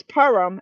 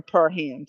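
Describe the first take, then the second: First: "Perham" as PER-um, h dropped; said as one word. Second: "Perham" as per-HAM, with a sounded h; said as two words. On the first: Streamer guessing at a viewer's surname, "Perham" as one word PER-um. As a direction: run "Perham" together, stress first, weak -um. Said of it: "as in one word". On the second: Streamer guessing at a viewer's surname, "Perham" split into per-HAM. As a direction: separate "Perham" into per and ham, full second vowel. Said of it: "I wouldn't separate it". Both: Shown as a demonstration.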